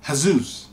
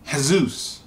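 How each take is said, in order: First: The name is pronounced the Latin way. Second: The name is pronounced the Latin way.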